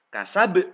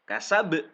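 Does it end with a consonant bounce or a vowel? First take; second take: consonant bounce; consonant bounce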